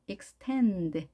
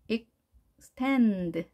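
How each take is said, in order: First: Extend run together, stress on tend; joined-up extend with tend prominent; stress on second syllable. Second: Extend split slowly, stress on tend; broken-up stress demo. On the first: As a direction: say extend as one word, leaning on tend. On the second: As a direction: pause after ex, then lean on tend. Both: Shown as a demonstration. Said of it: "여기에 강세가 있겠죠".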